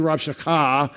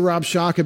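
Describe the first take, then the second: First: The stress is on the last syllable. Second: The stress is on the first syllable. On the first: This is the Hebrew way of saying it. "it'll be Rabshakeh in Hebrew ... that last syllable usually gets the accent" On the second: This is the English way of saying it. "we say Rabshakeh because that's what it looks like in English ... We put accents on the first syllable"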